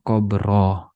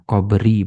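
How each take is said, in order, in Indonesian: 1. Kata ini berakhir dengan vokal a. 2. Kata ini berakhir dengan vokal i. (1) "bukan qabroh"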